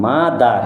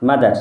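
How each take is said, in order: First: মাদার slowly in two parts, মা then দার; split into syllables. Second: Said in the usual way. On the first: Shown as a demonstration. Teacher showing a pupil two syllables, মাদার broken as মা-দার. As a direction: stretch and separate both syllables of মাদার. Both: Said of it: "এখানে দুটো syllable আছে".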